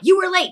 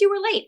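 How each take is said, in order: First: It is said in a harsh, scolding tone. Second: It is said in a gentle, concerned tone. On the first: The speaker is reprimanding and warning. The speaker calls it wrong. "There is no tone of like" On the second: The speaker cares whether everything is okay. The speaker calls it right. "the way that I just said that"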